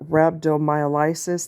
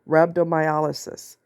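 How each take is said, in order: First: The vowel before 'lysis' is not an open 'ah'. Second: The vowel before 'lysis' is an open 'ah'. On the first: The speaker calls it wrong. "he pronounces it wrong" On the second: The speaker calls it right. "like you're opening your mouth for the dentist. Ah"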